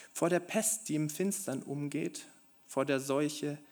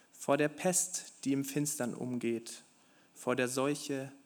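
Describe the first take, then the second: The two takes are said the same way.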